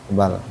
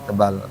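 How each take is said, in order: The two takes are said the same way.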